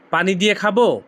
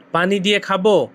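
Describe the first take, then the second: No difference in how they are said.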